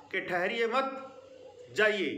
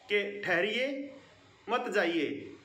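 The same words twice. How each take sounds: First: Urging someone to go on; pause after मत. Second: ठहरिए rising, a break, then मत जाइए falling; stopping someone from leaving; pause after ठहरिए. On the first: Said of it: "मत के बाद". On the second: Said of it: "आपको रोका जा रहा है". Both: Shown as a demonstration.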